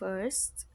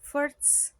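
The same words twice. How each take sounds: First: The word is said with a standard pronunciation. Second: The word is said with a learner's mispronunciation. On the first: The speaker calls it right. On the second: The speaker calls it wrong.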